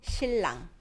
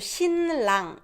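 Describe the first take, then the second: First: The n sound turns into an l sound. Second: The n sound is kept before the r. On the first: "So it becomes" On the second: "is hard to say"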